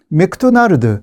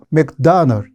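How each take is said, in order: First: It is said with Korean loanword syllables. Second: It is said clipped and reduced, English style.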